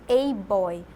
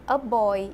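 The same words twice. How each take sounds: First: The article sounds like the letter name 'ay'. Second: The article is a short weak 'uh' sound. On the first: The speaker calls it wrong. "e não a boy" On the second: The speaker calls it right. "eu falei para vocês a boy"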